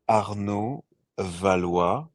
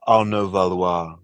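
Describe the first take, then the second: First: The name is said with a French accent. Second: The name is said with an English accent.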